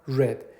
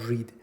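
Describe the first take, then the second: First: The vowel is short, like red. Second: The vowel is long, like reed. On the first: It is the past tense. The speaker calls it right. "گفتم read" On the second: It is the present tense. The speaker calls it wrong. "نگفتم read"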